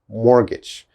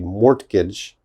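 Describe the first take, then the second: First: The T sound is silent. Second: The T sound is pronounced. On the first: The speaker calls it right. "this T is not important" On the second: The speaker calls it wrong. "Never, never say mortgage. That is definitely wrong"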